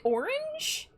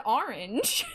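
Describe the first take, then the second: First: ORANGE said as "or-inj", rising; rounded "or" in ORANGE, as a question; questioned pronunciation. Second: ORANGE said as "ar-inj"; habitual pronunciation. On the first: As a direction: try ORANGE the other way, with "or". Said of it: "Is it orange?". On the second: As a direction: open "ar" at the start of ORANGE. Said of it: "I've always said orange". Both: Shown as a demonstration.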